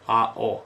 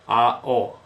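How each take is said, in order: First: The two vowels are said as separate syllables. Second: The two vowels are said as separate syllables.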